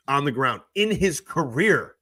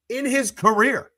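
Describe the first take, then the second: First: Said in the usual way. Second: In his career, slower and much higher, stress on his; emphatic repeat. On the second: Real, not acted. Streamer repeating a stat to his chat, emphatic and incredulous. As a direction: lean on his career in disbelief.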